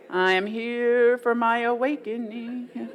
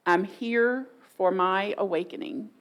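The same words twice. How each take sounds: First: Slow, drawn-out intoning; mock-solemn declaration. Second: Sincere, measured statement; meaning it. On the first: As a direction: intone it as if not meaning it. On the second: Shown as a demonstration. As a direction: say it like you truly mean it. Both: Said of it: "if today you actually meant it".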